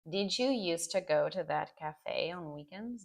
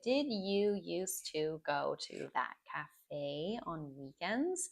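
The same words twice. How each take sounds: First: Words are reduced and run together quickly. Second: Each word is said fully and separately. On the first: "you will hear natural native speakers saying" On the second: "You can say it as you have learned it"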